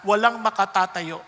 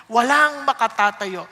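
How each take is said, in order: First: Said in the usual way. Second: WALANG slowed and louder; slow, weighty walang makatatayo; emphatic repeat. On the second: Shown as a demonstration. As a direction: drive home that no one stands.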